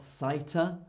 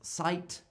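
First: An extra vowel sound is heard at the end. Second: The word ends on the T, with no vowel. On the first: The speaker calls it wrong. "It's not sighter" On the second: The speaker calls it right. "The letter E is silent"

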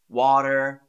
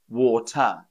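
First: The T sounds like a soft D. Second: The T is pronounced clearly and strongly. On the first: This is how an American speaker says it. "how an American would say these words ... it sort of turns into a D" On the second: This is how a British speaker says it. "a Brit pronounces the T a bit more strongly"

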